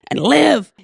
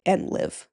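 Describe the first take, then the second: First: Loud, exultant meme-quote shout; big hammed-up cheer; Ted Lasso. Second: Said in the usual way. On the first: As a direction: belt it out like a rallying cry. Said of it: "That Ted Lasso, like, gif, meme". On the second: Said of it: "and he's like".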